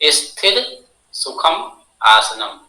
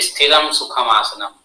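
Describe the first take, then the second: First: The first word ends without an 'm' sound. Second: The first word ends with an added 'm' sound. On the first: The speaker calls it right. "यहाँ पे हम की मात्रा नहीं है" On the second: The speaker calls it wrong. "जो भी आसन करता है कहता है ... लेकिन ऐसा नहीं है"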